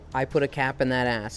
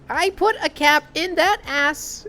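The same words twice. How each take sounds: First: It is said in the speaker's normal voice. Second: It is said in a SpongeBob voice.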